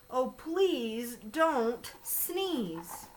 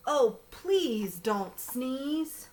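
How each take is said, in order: First: Long, dragged plea; slow pleading. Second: Drawn-out plea, long vowels; slow pleading. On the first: Fish begging the elephant, very slow plea. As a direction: draw out please don't sneeze, very slowly. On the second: Bear begging the elephant, slow drawn-out plea. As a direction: stretch out please don't sneeze, begging. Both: Acted. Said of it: "slow pleading refrain".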